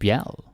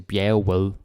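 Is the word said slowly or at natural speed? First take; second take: natural speed; slowly. First: The word is said quickly and naturally. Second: The word is said slowly and carefully. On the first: The speaker calls it right. "It's bjerget" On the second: The speaker calls it wrong. "that's very slow"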